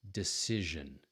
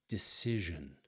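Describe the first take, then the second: No difference in how they are said.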